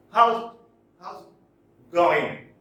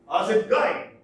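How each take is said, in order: First: "How's" punched loud, a gap, then "how's it going" drawn out; slow, loud beats on "How's" and "going"; stressed words apart. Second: "How's it going" in one loud run, pitched up; rhythmic example phrase. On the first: Lecturer showing the gap between stressed words, stressed words apart. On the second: Lecturer giving an example of rhythm, rhythmic example phrase. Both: Shown as a demonstration. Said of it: "the gap between the first stressed word".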